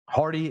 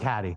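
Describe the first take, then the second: First: The name is carefully enunciated with clear consonants. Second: The name is said loosely in a casual accent. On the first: "You're saying Hardy like the correct way" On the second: "You gotta give the people what you want"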